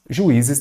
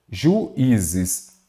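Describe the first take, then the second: First: Said in the usual way. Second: "Juízes" broken as ju... í-zes; split into syllables. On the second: Shown as a demonstration. Teacher showing students a hiatus, "Juízes" in separated syllables. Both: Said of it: "Vou separar em sílabas aqui".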